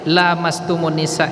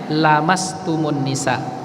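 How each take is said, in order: First: The vowel after the l is long. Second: The vowel after the l is short.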